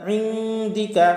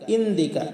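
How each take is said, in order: First: The word starts with a throaty ain sound. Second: The word starts with a plain glottal stop. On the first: The speaker calls it right. "আইনের উচ্চারণ হবে ইনদিকা" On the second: The speaker calls it wrong. "আমরা অনেকে পাঠ করি ইন্দিকা ... আসলে ইন্দিকা হবে না"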